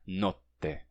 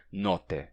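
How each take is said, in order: First: Notte with the T held long; notte, hold the T before releasing; double T. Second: Note said with a quick single T; note, the T barely held; short single T. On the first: Teacher showing the right Italian notte. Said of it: "O T dura mais tempo". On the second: Teacher showing the wrong Italian note. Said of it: "pronunciar um T duplo de fato". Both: Shown as a demonstration.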